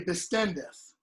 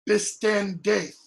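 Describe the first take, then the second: First: The vowel is reduced to a short eh. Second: The vowel is said fully and strongly. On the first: The speaker calls it right. "We say bistendeth, and it's just the eh" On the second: The speaker calls it wrong. "we don't say"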